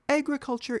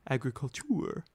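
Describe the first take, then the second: First: The word is pronounced the English way. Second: The word is pronounced the French way.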